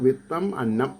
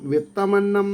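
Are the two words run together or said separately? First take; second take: separate; joined. First: The two words are said as separate words. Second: The two words are joined into one. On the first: Listeners can follow the meaning. "വായിക്കുമ്പോൾ വിത്തം അന്നം" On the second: This is how the word is actually written. "വിത്തമന്നം എന്നാണ് വാക്ക്"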